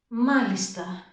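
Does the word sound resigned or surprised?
resigned. It is said in a sad, resigned tone. I understand and accept it, though it upsets me. "Δείχνω ότι έχω καταλάβει αυτό που μου είπε ο γιατρός και συμφωνώ παρότι με στενοχωρεί"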